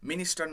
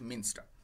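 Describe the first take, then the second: First: It has three syllables, with a vowel after 'n'. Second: It has two syllables, with no vowel after 'n'. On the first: The speaker calls it wrong. "মিনিস্টার নয়" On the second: The speaker calls it right. "খেয়াল রাখবে উচ্চারণটা"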